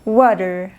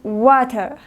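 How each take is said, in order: First: The middle t is a soft, r-like tap. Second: The middle t is a strong, crisp t. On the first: "Inglés americano" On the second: "Inglés británico"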